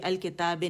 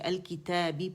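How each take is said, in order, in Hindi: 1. शब्द 'eh' स्वर पर खत्म होता है। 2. शब्द 'ee' स्वर पर खत्म होता है। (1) "नहीं पढ़ेंगे" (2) "पढ़ेंगे"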